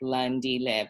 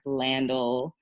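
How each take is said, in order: First: The name is said in its native form. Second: The name is said in a shortened, anglicized form. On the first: The speaker calls it right. "Landile is also really easy. It's like Landile" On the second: The speaker calls it wrong. "the most ridiculous like Landel"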